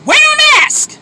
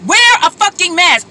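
First: High, loud, exasperated; exasperated yell. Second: Angry. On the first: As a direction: yell it in disbelief. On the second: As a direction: stress on WEAR, angry and firm. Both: Real, not acted. Ranting at non-mask wearers.

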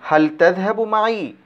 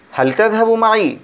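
First: Said in the usual way. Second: হাল তাযহাবু মাই asked as a question, voice lifted high on তাযহাবু; question intonation. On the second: Shown as a demonstration. Teacher showing students how to ask হাল তাযহাবু মাই, with rising question intonation. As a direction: make হাল তাযহাবু মাই sound like a real question, pitch up on তাযহাবু. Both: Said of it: "একটু intonation থাকবে".

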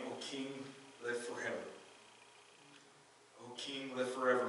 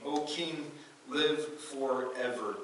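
First: Softer, hushed "O king, live forever"; soft reply. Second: Very slow, drawn-out "live forever"; solemn reply. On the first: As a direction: answer gently from the lion's den. Daniel answers from the den. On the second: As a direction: answer with calm reverence. Daniel answers the king. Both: Acted.

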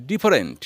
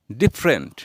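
First: ডিফারেন্ট as di-fa-rent; ডিফারেন্ট in three syllables; wrong pronunciation. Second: ডিফারেন্ট as dif-rent; ডিফারেন্ট in two syllables; correct pronunciation. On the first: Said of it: "another mistakes of pronunciation". (ভুল উচ্চারণে ডি-ফা-রেন্ট) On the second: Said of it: "বলবো ডিফারেন্ট". (সঠিক উচ্চারণে ডিফ্রেন্ট) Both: Shown as a demonstration.

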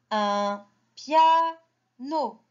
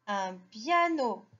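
First: Piano slowly in spaced beats, un, pia, no; sounded out. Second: Said in the usual way. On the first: Shown as a demonstration. Teacher models reading for children, slow syllable by syllable. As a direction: pause before each part of piano.

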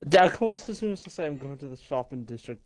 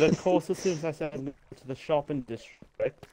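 First: Strong Welsh lilt; Welsh accent. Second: Welsh lilt, repeated on request; Welsh accent. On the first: Real, not acted. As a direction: say it in broad Welsh. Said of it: "your Welsh accent right there". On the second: Shown as a demonstration. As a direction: lay the Welsh accent on again. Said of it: "please repeat what you just said".

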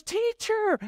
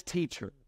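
First: Very high-pitched cry of recognition; acted high excited call; acted exclamation. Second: Said in the usual way. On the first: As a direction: squeal TEACHER as if suddenly recognizing him. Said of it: "She goes".

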